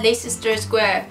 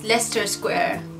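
First: Leicester is read with all its letters sounded. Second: Leicester is shortened, with letters dropped. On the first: This is how a foreigner reads the spelling. The speaker calls it wrong. "decía así" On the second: This is how the locals say it. The speaker calls it right. "la gente me miraba y me decía"

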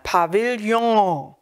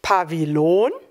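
First: The word is said with French sounds. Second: The word is read with plain German sounds. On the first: The speaker calls it right. "Weil es aus dem Französischen kommt, ... sondern Pavillon" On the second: The speaker calls it wrong. "spricht man es nicht Pavillon"

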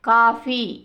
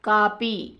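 First: The middle consonant is an aspirated f-like sound. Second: The middle consonant is a plain p sound. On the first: This is the standard form of the word. "ఫాకి పాకి తేడాలుగా ఉచ్చరించడం" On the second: This is the non-standard dialect form. "ఫాకి పాకి తేడాలుగా ఉచ్చరించడం"

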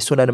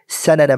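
First: The first vowel sounds like 'u'. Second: The first vowel sounds like 'a'. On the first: "It can also be sunana" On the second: "they chose the best pronunciation to be sanana"

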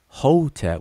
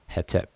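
First: The first vowel sounds like 'o'. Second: The first vowel sounds like 'e'. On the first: "we pronounce it Hotep with an O and an E in between the consonants" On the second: "but conventionally it would be Hetep, H-E-T-E-P"

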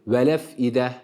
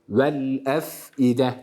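First: The l runs straight into the following vowel. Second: The l is held apart from the following vowel. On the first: The lam is given a vowel instead of staying silent. The speaker calls it wrong. "Bırakırsak ne olur? ... Hareke vermiş oluyoruz" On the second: The lam keeps its sukun and each letter is distinct. The speaker calls it right. "tane tane"

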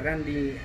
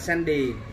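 First: The name is said the English way. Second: The name is said in a pidgin way. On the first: This is how it is said in English. The speaker calls it right. "thật sự nó là Randy, nếu theo tiếng Anh" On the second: This is how an older relative reads it. The speaker calls it wrong. "Cô cứ đọc là Sandy, ... chỉ đọc theo tiếng Bồi thôi"

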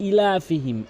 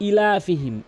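Both takes have the same delivery.

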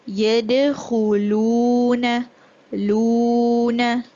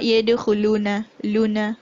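First: The oo vowel is held for two counts. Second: The oo vowel is cut short. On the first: The speaker calls it right. "you're gonna elongate the sound for two counts minimum" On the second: The speaker calls it wrong. "not yadkhuluna luna"

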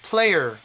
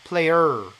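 First: The stress is on the first syllable. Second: The stress is on the second syllable. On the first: The speaker calls it right. "앞에가 강조가 돼야 되는데" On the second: The speaker calls it wrong. "이걸 얼로 해버리면은 두 번째 게 강조가 돼 버려요"

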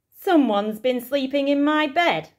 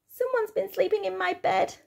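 First: It is said in a big, booming voice. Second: It is said in a squeaky little voice.

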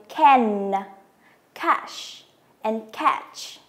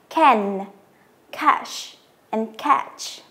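No difference in how they are said.

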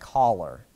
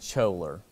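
First: The word sounds just like 'collar'. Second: The word is pronounced differently from 'collar'. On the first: The speaker calls it right. "what if I said collar, like C-H-O-L-E-R?" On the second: The speaker calls it wrong. "I'm going to say the way he says it, okay? Because he mispronounces the way he says it"

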